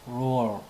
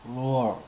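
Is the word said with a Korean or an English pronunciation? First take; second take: English; English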